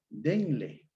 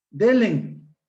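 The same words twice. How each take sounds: First: Said in the usual way. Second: DELEN with N moved to the end, high and loud; metathesis pronunciation. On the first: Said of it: "Es denle". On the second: Shown as a demonstration. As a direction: say "Delen" as DÉ-len. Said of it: "No es denle, delen".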